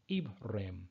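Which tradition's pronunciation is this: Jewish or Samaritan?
Samaritan. It is said in the Samaritan reading tradition. "how Samaritans pronounce it"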